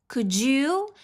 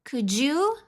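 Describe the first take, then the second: The two takes are said the same way.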